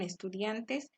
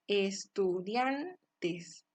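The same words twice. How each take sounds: First: Said in the usual way. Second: Estudiantes very slowly, stretched DIAN, dropped TES; syllable by syllable. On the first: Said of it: "De la misma forma en estudiantes". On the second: Shown as a demonstration. Teacher locating the tonic syllable, slow estudiantes with stressed DIAN. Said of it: "donde recae la mayor intensidad de voz".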